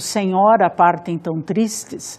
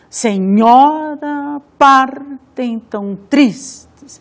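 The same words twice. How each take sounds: First: It is spoken with a natural, even rhythm. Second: The stressed syllables are beaten out heavily.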